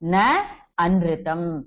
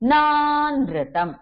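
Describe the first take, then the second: First: The two words are said separately, not merged. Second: The two words are merged into one word. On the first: "split பண்ணி சொன்னேன்னா" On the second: "சேர்ந்து சொன்னேன்னா"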